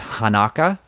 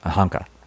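First: The name has three syllables, an extra vowel. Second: The name has two syllables, no middle vowel. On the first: The speaker calls it wrong. "I read it as Hanaka... you expect that extra vowel" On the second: The speaker calls it right. "they kept saying Honka"

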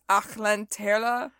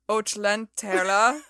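First: The first vowel sounds like 'ach'. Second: The first vowel sounds like 'och'. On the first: The speaker calls it right. "Very good" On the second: The speaker calls it wrong. "You said, oh, no, Ach"

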